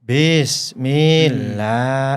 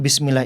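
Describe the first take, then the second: First: The vowel after mil is held very long. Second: The vowel after mil is held briefly. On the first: The speaker calls it wrong. "mad wajib mutasil, tiga alif, enam harokat" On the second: The speaker calls it right. "mad tabi'i ... satu alif, dua harokat"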